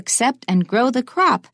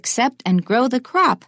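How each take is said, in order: First: The word crop carries strong stress. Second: The same.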